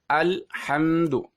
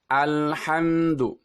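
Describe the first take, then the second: First: The sound breaks off after the L. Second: The sound flows on without a break. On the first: The speaker calls it wrong. "suaranya terputus" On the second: The speaker calls it right. "suaranya harus tetap mengalir"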